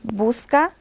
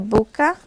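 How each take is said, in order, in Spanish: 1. Se pronuncia el sonido s antes de la c. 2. Se pierde el sonido s antes de la c. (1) "de vez de la persona decir busca" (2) "dice buca"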